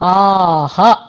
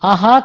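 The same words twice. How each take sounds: First: The final vowel is long. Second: The final vowel is short. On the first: The speaker calls it right. "దీర్ఘమైనటువంటి ఆ రెండవ ఆ" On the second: The speaker calls it wrong. "ఆహా కాకుండా"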